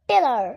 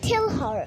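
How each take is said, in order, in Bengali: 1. her-এর h বাদ যায়। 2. her-এর h স্পষ্টভাবে উচ্চারিত হয়। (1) "ব্রিটিশরা বলে" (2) "আমরা বলি"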